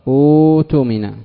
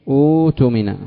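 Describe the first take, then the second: Both takes have the same delivery.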